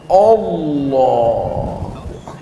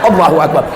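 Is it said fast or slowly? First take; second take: slowly; fast. First: It is said slowly and drawn out. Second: It is said quickly and hurriedly.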